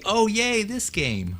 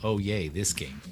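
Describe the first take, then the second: First: It sounds sincerely excited and cheerful. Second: It sounds sarcastic and unenthusiastic.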